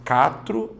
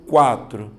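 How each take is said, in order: First: Catro said without the U, plain KA-tro; wrong pronunciation. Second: Quatro with the U clearly heard, KWA-tro; correct pronunciation. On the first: Teacher offering the wrong way to say quatro, slowly. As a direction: drop the W glide in catro. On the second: Teacher giving the right way to say quatro, slowly. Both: Shown as a demonstration. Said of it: "você fala catro ou quatro".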